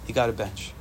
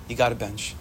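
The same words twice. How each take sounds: The two takes are said the same way.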